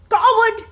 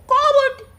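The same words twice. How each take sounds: First: High, loud shouted insult; angry scream. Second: High, loud echo of the insult; echoed scream. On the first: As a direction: hurl it angrily at the mountain. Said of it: "Angered at the response, he screams". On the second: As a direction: throw the shout back from the mountain. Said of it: "He receives the answer". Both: A narrator's reading.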